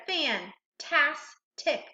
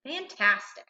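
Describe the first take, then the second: First: "fantastic" slowly, in three separate syllables. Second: Said in the usual way. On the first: Shown as a demonstration. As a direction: break "fantastic" into fan, tas, tic with pauses. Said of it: "So reading each syllable". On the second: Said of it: "and blending".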